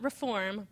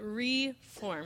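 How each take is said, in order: First: The prefix runs smoothly into the rest of the word. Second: The prefix is set apart from the rest of the word. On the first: "Not reform" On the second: "re-hyphen form, meaning to form again"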